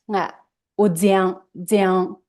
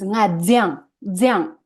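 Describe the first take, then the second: First: The verb is said with a high level tone. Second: The verb is said with a falling tone. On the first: The action happened in the past. "That's the high level tone" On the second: The action happens now. "jiang is a falling tone"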